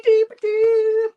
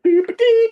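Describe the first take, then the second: First: "dee-ba-dee" stretched out slowly, very high and loud; slow goofy sing-song. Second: "Dee-ba-dee" squeaked very high and loud; goofy sing-song. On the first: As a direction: draw out "dee-ba-dee" like a slowed-down cartoon tune. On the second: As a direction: toot "Dee-ba-dee" like a silly cartoon jingle. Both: Retold or imitated. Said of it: "He's like".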